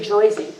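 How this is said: The first vowel sounds like 'oy'. It is a mocking stereotype of the local accent. The speaker calls it wrong. "a Jersey girl will never say Joyzy"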